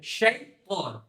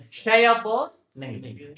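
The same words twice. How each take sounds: First: شیطان said shaitan with a clean ط; teacher models the right شیطان; correct shaitan. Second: شیطان said as shaipor, the mistaken way; teacher shows the wrong شیطان; wrong shaitan. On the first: Teacher correcting the student's pronunciation. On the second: Teacher demonstrating the student's wrong pronunciation. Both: Shown as a demonstration.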